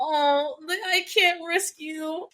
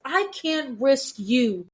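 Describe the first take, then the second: First: Higher, slow and tender, a lightly done Cassian; sweet protective quote. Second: Very slow, each word set down firmly; firm protective quote. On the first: Podcaster quoting Cassian to his love, sweet and slow. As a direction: soften it like a protector who means it. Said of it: "He was so sweet about it". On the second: Podcaster quoting Cassian refusing to risk her, slow and firm. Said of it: "but he was also like". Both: Retold or imitated.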